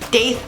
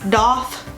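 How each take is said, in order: First: The word is pronounced as it is spelled. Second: The word is pronounced unlike its spelling. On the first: "I pronounce it how it's spelled" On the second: "I think a lot of piercers do say the doth"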